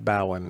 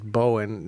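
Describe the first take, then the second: First: The first syllable rhymes with cow. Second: The first syllable rhymes with go. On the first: The speaker calls it wrong. "not Bowen" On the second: The speaker calls it right. "Tracy is now insisting that it is Bowen"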